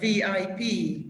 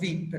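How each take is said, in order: First: Each letter is said separately. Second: The letters are run together as one word. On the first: The speaker calls it right. "So always separate the letters" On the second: The speaker calls it wrong. "We never say ASAP or V I P"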